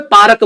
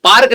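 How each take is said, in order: First: पार्क with a vowel slipped in before the k, "paa-rak"; local pronunciation. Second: Said in the usual way. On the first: Shown as a demonstration. Contrasting the English पार्क with his hometown's "paarak". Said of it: "ये अंग्रेज बोलते हैं". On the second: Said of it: "पार्क नहीं बोलते".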